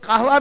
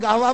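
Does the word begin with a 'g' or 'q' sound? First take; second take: q; g. First: The word begins with a 'q' sound. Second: The word begins with a 'g' sound.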